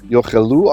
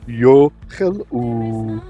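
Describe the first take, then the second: First: It is read at normal voice pitch. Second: It is read with a lowered voice.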